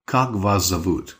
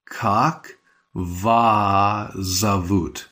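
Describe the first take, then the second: First: "вас зовут" run together at normal speed, the s melting into the z; natural run-together. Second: Very slow, each word drawn out; slow careful model. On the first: Teacher showing the fast natural form to learners. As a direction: say "вас зовут" as one flowing unit. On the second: Teacher modelling the question slowly for learners. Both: Shown as a demonstration. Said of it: "So it's more like".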